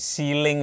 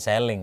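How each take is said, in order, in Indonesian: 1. Vokal pertama panjang, seperti pada 'see'. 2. Vokal pertama pendek, seperti pada 'sell'. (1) "tapi ceiling" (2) "bukan selling"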